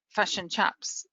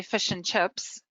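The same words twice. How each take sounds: First: "chups" with the i turned to a short u sound; "chips" pronounced "chups", Kiwi style. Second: Said in the usual way. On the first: Shown as a demonstration. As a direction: say "fish and chups", vowel like in cup. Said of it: "it sounds like fish and chups". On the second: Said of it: "when we say fish and chips".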